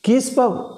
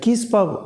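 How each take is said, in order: First: Sounds are dropped, squeezing it into two syllables. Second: Sounds are dropped, squeezing it into two syllables.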